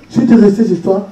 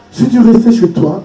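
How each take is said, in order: Both takes have the same delivery.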